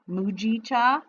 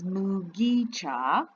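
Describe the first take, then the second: First: The g is said soft, like a j. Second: The g is said hard, as in go. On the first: The speaker calls it wrong. "I was saying it with a soft G" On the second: The speaker calls it right. "but it is Mugicha"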